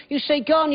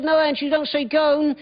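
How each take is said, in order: First: "gone" said short, rhyming with "on"; correcting pronunciation. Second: "gone" said with a long oh, rhyming with "bone"; correcting pronunciation. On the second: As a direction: insist on "gone" pronounced like "bone". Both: Retold or imitated. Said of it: "She said".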